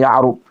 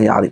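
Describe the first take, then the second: First: The final syllable has the vowel 'u'. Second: The final syllable has the vowel 'i'. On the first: The speaker calls it right. "Maksudnya Ya'rub" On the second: The speaker calls it wrong. "bukan Ya'rib"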